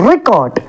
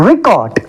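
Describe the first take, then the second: The two takes are said the same way.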